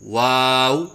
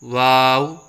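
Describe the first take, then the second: First: The w is made with rounded open lips. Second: The w is made without rounding the lips. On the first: The speaker calls it right. "सही अदायगी है" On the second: The speaker calls it wrong. "बग़ैर होंठ गोल करके पढ़ना"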